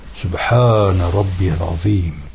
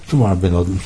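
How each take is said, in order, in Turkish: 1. İfade tam olarak söylenir, her ünlü telaffuz edilir. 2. İfade acele söylenir, ünlüler kısaltılarak atılır. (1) "Onun esas Arapçası" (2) "günümüzde bazılarının yaptığı gibi ... Arapça olmuyor o"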